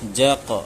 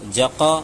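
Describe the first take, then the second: First: The final consonant ends with a slight bounce. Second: The final consonant is followed by a full vowel. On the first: The speaker calls it right. "हल्का सा दोनों का बीच में रखना है" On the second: The speaker calls it wrong. "ये गलत हो गया क्योंकि ज़बर तरह मालूम होने लगा"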